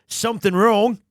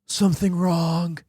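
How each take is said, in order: First: Put-on Aussie voice; Australian accent. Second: Nick Cage. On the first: Player auditioning the samurai actor as an Aussie, accented. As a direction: say it as a broad Australian. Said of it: "Or is he an Aussie?". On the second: Acted. Player testing a voice for the actor character, Cage-like. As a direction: try out a measured actor voice. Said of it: "It's like Nick Cage".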